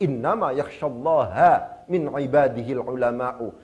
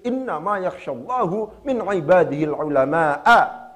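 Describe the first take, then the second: First: Allah ends in a, and ulama ends in u. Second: Allah ends in u, and ulama ends in a. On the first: Only the scholars truly fear God. "qiraah mutawatirah yang biasa dibaca di dalam Al-Quran" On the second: God is the one who fears the scholars. "qiraah yang syaddah, ya, yang membacanya sebagai fa'il"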